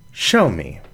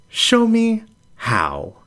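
First: Said in the usual way. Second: High, slow, disbelieving ask; startled question. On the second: Acted. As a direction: pitch it up in shock.

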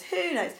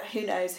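First: Who knows said much higher, as a playful shrug; higher repeat. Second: Said in the usual way. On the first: Real, not acted. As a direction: toss it up high and light. Repeated musing, voice jumps up.

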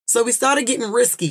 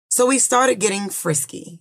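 First: Risky said plainly with an r, pitched up in correction; corrected word. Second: Frisky said with an f, misreading risky; misread word. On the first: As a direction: stress the fixed word risky. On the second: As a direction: read it wrongly as frisky. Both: Shown as a demonstration. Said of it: "she said, not frisky".

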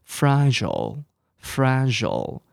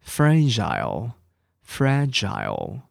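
First: Fragile said FRA-jul, ending in a short jul, slowly; slow American fragile; American pronunciation. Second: Fragile said FRA-jile, ending in a long jile, slowly; slow British fragile; British pronunciation. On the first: Teacher reviews American words for students. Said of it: "这个是美式英文哦". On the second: Teacher reviews British words for students. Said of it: "英式的发音". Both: Shown as a demonstration.

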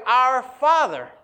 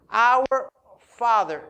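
First: "Our Father" drawn out slow and loud, weight on Father; slow stressed reading. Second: "Our Father" very slow, weight on Our; slower with OUR stressed. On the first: Preacher reading the prayer aloud to his church, slow and emphatic. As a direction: read "Our Father" slowly, leaning on Father. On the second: Preacher repeating the prayer's opening to his congregation, slow stress on Our. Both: Shown as a demonstration. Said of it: "In this manner".

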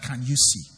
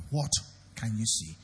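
First: Said in the usual way. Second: "What" set apart, then a pause before a low, soft "can you see"; single out the word "What"; stress on WHAT. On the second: Shown as a demonstration. Preacher corrects the question for the congregation, stress on "What". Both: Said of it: "It's not that".

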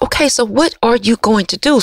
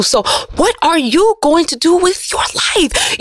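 First: Said in the usual way. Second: Higher and slow, pressing the question home; slow down and push the question at them; emphatic challenge. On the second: Shown as a demonstration.

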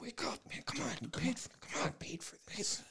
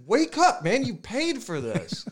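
First: Urgent whispered wake-up call; very soft, breath-only pleading; hushed, not yelling. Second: Mock-yelled waking of a sleeping buddy; insistent and exasperated, pitched way up; urgent wake-up call. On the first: Retold or imitated. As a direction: whisper insistently to a friend in a quiet theater. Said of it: "he wasn't yelling". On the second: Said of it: "He was shaking me awake".

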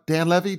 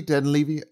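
First: "Levy" rhyming with heavy; short-E Levy. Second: "Levy" with a long ee up front. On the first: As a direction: say "Levy" as LEV-ee. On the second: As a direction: say "Levy" as LEE-vee. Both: Shown as a demonstration. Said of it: "I've said it both ways now".

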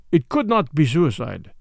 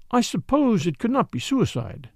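First: Level, certain statement; settled contradiction, no doubt in it; matter-of-fact denial. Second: Higher, tentative doubt; mildly doubtful, pitched up; rather doubtful. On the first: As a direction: rule it out plainly. Commissary firmly rules out suicide. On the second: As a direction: float it as an uncertain suggestion. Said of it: "rather doubtfully". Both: A narrator's reading.

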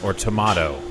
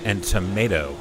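First: "tomato" said as to-MAH-to; "tomato" with the British ah vowel; tomato with broad a. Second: "tomato" said as to-MAY-to; "tomato" with the American ay vowel; tomato with long a. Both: Shown as a demonstration.

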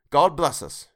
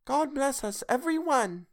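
First: A father's toast, hint of a lift; lightly voiced father toasting; Bob's toast. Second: Put-on much higher small child's voice; high, small voice of a sickly child; Tiny Tim. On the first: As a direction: raise a glass gently to the family. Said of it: "Then Bob proposed". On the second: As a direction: pipe it up like a frail little boy. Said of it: "said Tiny Tim". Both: A narrator's reading.

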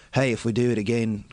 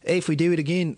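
First: A second, nasal try at an Australian accent; Australian accent attempt. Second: A shaky try at an Australian accent; Australian accent attempt. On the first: Comic failing an Australian accent for a friend. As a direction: give up midway through an Australian accent. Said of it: "I can't fucking do it". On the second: Comic showing off a bad Australian accent. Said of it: "see, that's Australian". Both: Shown as a demonstration.

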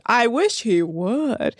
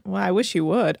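First: Slow, stretched I WISH HE WOULD; emphatic, half-speed wish with a rise at the end; drawn-out repeat. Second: Said in the usual way. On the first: Real, not acted. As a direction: say "I wish he would" slowly, lingering on each word.

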